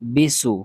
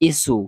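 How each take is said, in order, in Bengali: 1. সিলেবলটি b ধ্বনি দিয়ে শুরু হয়। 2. সিলেবলটি খালি স্বরধ্বনি দিয়ে শুরু হয়। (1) "এগুলা উচ্চারণ হবে না" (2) "এগুলা উচ্চারণ হবে না"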